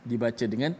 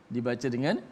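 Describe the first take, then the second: Both takes have the same delivery.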